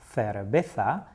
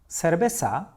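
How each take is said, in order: First: It is said with a northern Spain accent. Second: It is said with a Latin American accent. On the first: "in many provinces in Spain" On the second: "in Latin America and the south of Spain"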